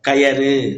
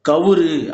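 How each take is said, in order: First: The middle syllable is ya. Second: The middle syllable is vu. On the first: "கயறு என்பது தவறு" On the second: "கவுரு என்பதும் தவறு"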